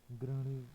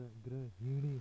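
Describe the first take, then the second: First: ग्रहणी squeezed to graa-ni; wrong form. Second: ग्रहिणी with hi sounded; correct form. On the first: Teacher showing learners the mistake, ग्रहणी without h. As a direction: say ग्रहणी with h dropped. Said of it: "नहीं होता". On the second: Teacher giving the correction, ग्रहिणी with clear hi. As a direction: say ग्रहिणी as gra-hi-ni. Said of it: "होता है". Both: Shown as a demonstration.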